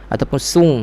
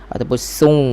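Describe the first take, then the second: The two takes are said the same way.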